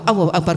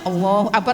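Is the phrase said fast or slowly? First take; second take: fast; slowly. First: The phrase is said quickly and hurriedly. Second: The phrase is said slowly, followed by a pause. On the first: The prayer is being rushed. The speaker calls it wrong. "Jangan buru-buru ya" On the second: The prayer is performed calmly. The speaker calls it right. "pelan-pelan aja. Allah apa ada jeda"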